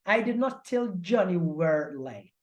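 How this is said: The stress is on "were".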